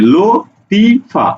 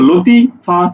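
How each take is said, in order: First: The name is split into three separate syllables. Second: The first two syllables run together before a break. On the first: The speaker calls it right. "তুমি উচ্চারণ করছো কিভাবে" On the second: The speaker calls it wrong. "তুমি কি একসাথে উচ্চারণ করছো"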